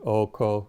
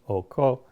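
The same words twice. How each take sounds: First: Both syllables are on the same mid pitch. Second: The pitch goes from mid to high. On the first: It means husband. "husband is Ray Ray, two midtones" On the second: It means a farming hoe. "Re Mi, mid high"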